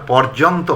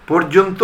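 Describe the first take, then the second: First: পর্যন্ত said as "pɔrjonto"; mistaken open vowel. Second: পর্যন্ত said as "porjonto"; closed "por" opening পর্যন্ত; close o vowel. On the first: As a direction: say পর্যন্ত with an open aw, "pawr-jon-to". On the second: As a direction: say পর্যন্ত with rounded o's, "por-jon-to". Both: Shown as a demonstration. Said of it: "এটা আর পর্যন্ত হয়নি".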